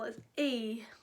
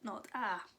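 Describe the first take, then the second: First: A long vowel, like the letter's name. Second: A short vowel, like the letter's sound. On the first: "if it's a long vowel, it's A"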